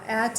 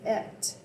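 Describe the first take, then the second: First: The vowel is an open 'a' sound. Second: The vowel is an 'e' sound. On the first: This is the older Germanic form of the word. "at is Germanic" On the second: This is the form used with the younger Danish rune set. "If I was using the younger or the Danish rune set, I would say et"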